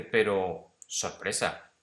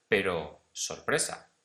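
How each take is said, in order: First: "Pero" punched loud, then "sorpresa"; emphatic exclamation. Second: "pero sorpresa" slow and louder; raised, emphatic. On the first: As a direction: hit "Pero" hard, like a surprise. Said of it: "de una forma un poco más acentuada". ("Pero" muy fuerte y exclamado, luego "sorpresa") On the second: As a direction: stretch out "pero sorpresa" with surprise. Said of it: "he intentado levantar el tono de voz". ("pero sorpresa" lento y más fuerte, con énfasis) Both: Shown as a demonstration.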